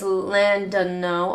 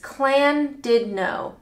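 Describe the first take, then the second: First: The name begins with a plain L sound. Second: The name begins with a CL-like sound. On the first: The speaker calls it wrong. "Wrong is" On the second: The speaker calls it right. "Right is ... Clan, where's the C coming from?"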